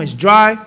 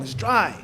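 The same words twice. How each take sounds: First: A louder, blunt mock complaint about the food; rude food complaint. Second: A softer, sulky mock grumble; muttered food complaint. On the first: Mocking a picky eater at the table, loud blunt complaint. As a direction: say "It's dry." with a loud, dismissive push on "dry". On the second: Mocking a picky eater grumbling to the cook, quiet sulky mutter. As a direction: drop "It's dry." quietly and dismissively, "dry" falling. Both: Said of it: "There's no need to talk like that".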